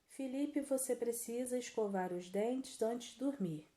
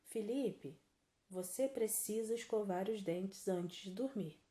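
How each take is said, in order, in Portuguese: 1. É dito de corrido, sem pausa. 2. Há uma pausa depois de 'Felipe'. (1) "Não ficou muito boa, né?" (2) "Agora sem falar a vírgula"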